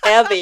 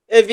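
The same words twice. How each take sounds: First: It is said with rolled, English-like sounds. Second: It is said flatly with plain Korean sounds. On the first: The speaker calls it right. "조금 굴려서 발음해 주시면" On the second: The speaker calls it wrong. "너무 정직하셔서 에비 이렇게 하지 마시고"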